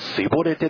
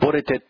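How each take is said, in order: First: The word begins with an s sound. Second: The word begins with a sh sound. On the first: The speaker is from Ephraim and is caught. The speaker calls it wrong. "エフライム人みたいに、すいぼれてと、ね、そういうふうに、ね、発音する人は" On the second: The speaker is from Gilead and is let through. The speaker calls it right. "どういうふうに発音できる、ね、人は、ね、ちゃんと通して"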